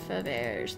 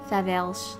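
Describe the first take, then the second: First: The name is said with an American pronunciation. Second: The name is said with a French pronunciation. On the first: The speaker calls it wrong. "more like the Americanized pronunciation of his name" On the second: The speaker calls it right. "in French, it's more like Faverge"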